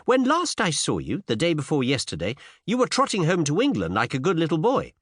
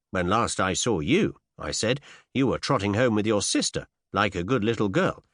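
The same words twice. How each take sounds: First: Put-on high, teasing young woman's voice; pert young lady. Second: Said in the usual way. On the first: A narrator's reading. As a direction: tease him in a lilting high voice.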